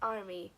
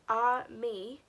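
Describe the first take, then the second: First: The two letters are run together quickly. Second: The two letters are said slowly and separately.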